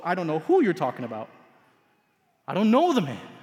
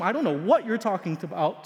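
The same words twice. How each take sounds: First: "who" leaned on, fast and pressed; stress on who. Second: "what" lifted and leaned on, the rest even; stress on what. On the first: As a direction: punch the word "who". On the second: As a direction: hit the word "what". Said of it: "He's moved from". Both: Acted.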